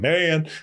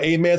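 First: Only the last syllable is said. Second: The whole word is said with both syllables. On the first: "Sometimes we just go like" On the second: "we don't say the whole word"

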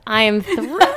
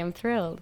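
First: The voice sounds lively and excited. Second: The voice sounds flat and unexcited. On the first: The speaker calls it right. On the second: The speaker calls it wrong.

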